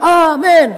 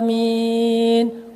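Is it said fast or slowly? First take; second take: fast; slowly. First: It is said quickly and briskly. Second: It is said slowly and drawn out.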